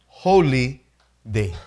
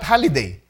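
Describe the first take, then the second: First: It is said as two separate words. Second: It is run together as one word. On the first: It means a day set apart as sacred. The speaker calls it right. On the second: It means a vacation day. The speaker calls it wrong. "Not holiday"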